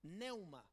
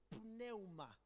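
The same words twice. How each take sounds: First: Said in the usual way. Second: "Pneuma" with the P sounded before the N; audible initial P. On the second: Shown as a demonstration. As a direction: pronounce the P at the start of "Pneuma". ("Pneuma" con la P inicial pronunciada) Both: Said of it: "con una P al principio".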